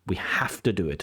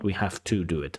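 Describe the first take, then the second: First: The word 'to' is said in its weak form. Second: The word 'to' is said in its full form. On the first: The speaker calls it right. "it is more natural to use that weak form of to" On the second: The speaker calls it wrong.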